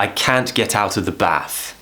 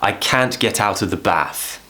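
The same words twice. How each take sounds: First: It is said with a northern English accent. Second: The same.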